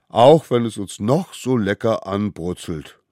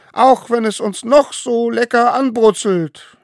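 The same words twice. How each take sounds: First: Said in the usual way. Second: High, loud solemn call; leading an oath. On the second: A narrator's reading. Smallest one calling the oath. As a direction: proclaim each word.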